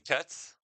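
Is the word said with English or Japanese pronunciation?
English. It is said as one English syllable, 'cuts'.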